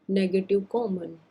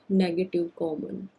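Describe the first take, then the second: Both takes have the same delivery.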